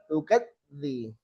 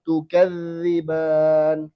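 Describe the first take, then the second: First: Tukadzi with the dz stopped short; cut zal. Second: Tukadziban with the dz drawn out, slowly; slowly stream the dz in Tukadziban; flowing zal. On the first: Teacher showing the mistake. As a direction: clip the dz in tukadzi. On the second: Teacher modelling correct zal, slowly. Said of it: "Bukan tukadzi". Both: Shown as a demonstration.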